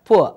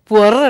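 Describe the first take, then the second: First: It is said as one syllable without r. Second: It is said as two syllables ending in r. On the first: The speaker calls it right. "உண்மையான ஆங்கிலம் சரியாக பேசுவதென்றால் போ என்று சொல்ல வேண்டும்" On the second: The speaker calls it wrong. "இந்தியாவிலே சில பேர் புவர் என்றுவார்கள்"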